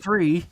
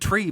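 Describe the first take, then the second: First: The word starts with a TH sound. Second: The word starts with a plain T sound. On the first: It is how the line is actually said in the film. The speaker calls it right. "he doesn't actually say it like that" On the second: It is a running joke version of the line. The speaker calls it wrong. "we always say tree"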